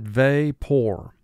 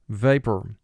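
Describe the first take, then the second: First: The last syllable has a full 'or' sound. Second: The last syllable is reduced, like 'per'.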